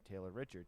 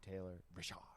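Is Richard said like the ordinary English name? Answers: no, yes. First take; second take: yes; no. First: Richard sounds like the ordinary English name. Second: Richard sounds unlike the ordinary English name. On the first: The speaker calls it wrong. "not Taylor Richard" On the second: The speaker calls it right. "it's R I apostrophe C H A R D"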